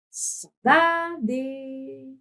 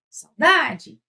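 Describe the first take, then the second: First: Sung, "saudade" cantado, com "da" bem sustentado; sung, cante "saudade" esticando as vogais; sung, palavra cantada. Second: "saudade" chamado, com "DA" em destaque; chamando a palavra. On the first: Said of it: "Pode cantar". (sung, "saudade" em tom de canto) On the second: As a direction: chame "saudade" como quem chama alguém. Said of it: "Ou chama". ("saudade" em tom de chamado) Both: Shown as a demonstration.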